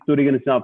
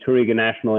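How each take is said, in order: First: The name is said with Portuguese pronunciation. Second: The name is said with English pronunciation. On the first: It is the proper native form of the name. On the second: It keeps the name familiar for American consumers.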